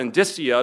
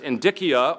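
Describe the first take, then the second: First: The c is pronounced soft, not like a k. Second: The c is pronounced hard, like a k. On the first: "depending on whether you pronounce the C hard or soft" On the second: "depending on whether you pronounce the C hard or soft"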